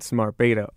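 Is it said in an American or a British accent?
American. Beta is said the American way.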